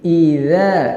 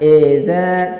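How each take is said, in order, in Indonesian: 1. Vokal pertama adalah bunyi 'ee' yang jelas. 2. Vokal pertama adalah bunyi 'eh' yang terbuka. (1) "Membacanya yang benar yaitu dengan I. Suaranya i" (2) "jangan edza, salah"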